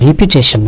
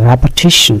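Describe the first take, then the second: First: The first syllable has an 'ee' vowel. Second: The first syllable has an 'eh' vowel. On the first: The speaker calls it wrong. "আর রিপিটেশন না" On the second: The speaker calls it right. "উচ্চারণটা হচ্ছে রেপিটেশন"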